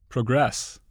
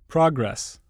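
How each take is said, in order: First: The stress is on the second syllable. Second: The stress is on the first syllable. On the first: It is used as a verb. "the corresponding verb is stressed on the stem" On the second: It is used as a noun. "Many nouns and adjectives are stressed on the prefix"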